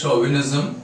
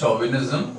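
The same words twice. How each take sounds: First: The word begins with a soft sh sound. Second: The word begins with a hard ch sound. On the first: The speaker calls it right. "This is pronounced as chauvinism" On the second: The speaker calls it wrong. "not chauvinism"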